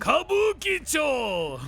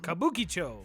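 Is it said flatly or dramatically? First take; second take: dramatically; flatly. First: It is said in a dramatic, epic voice. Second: It is said flatly, without drama.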